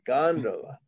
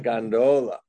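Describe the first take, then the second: First: Gondola stressed on the first syllable, GON-duh-la; corrected pronunciation. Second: Gondola with a long middle o, gon-DOH-la; mistaken pronunciation. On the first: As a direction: say gondola as GON-duh-la, pitched up then falling. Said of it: "not gondola, gondola". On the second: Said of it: "not gondola". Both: Shown as a demonstration.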